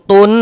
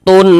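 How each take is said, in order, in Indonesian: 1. Bunyi n di akhir diucapkan dengan jelas dan dipotong pendek. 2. Bunyi n di akhir diucapkan dengan jelas dan dipotong pendek.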